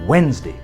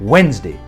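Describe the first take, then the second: First: The middle d is left silent. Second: The middle d is left silent.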